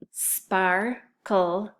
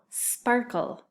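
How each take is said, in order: First: SPARKLE in two separate beats, SPAR, pause, KLE; split into syllables. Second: Said in the usual way. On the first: Shown as a demonstration. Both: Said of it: "listen closely to those syllables".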